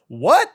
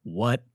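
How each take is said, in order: First: High, louder shocked what; a startled what, pitched high and loud; surprised what. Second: Quiet disbelief; a hushed private what; inner stunned what. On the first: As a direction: blurt it out in disbelief. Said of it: "And I go". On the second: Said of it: "But I'm really like". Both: Retold or imitated.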